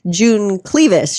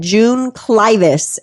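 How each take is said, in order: First: Clivis is said without a long eye vowel. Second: Clivis is said with a long eye vowel. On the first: The speaker calls it wrong. "Don't make the mistake I did. I was all June Clevis" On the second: The speaker calls it right. "it's that long eye"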